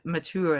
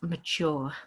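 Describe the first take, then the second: First: The word is said with an American accent. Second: The word is said with a British accent. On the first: "the Americans tend to pronounce this word mature" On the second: "but we say it as mature"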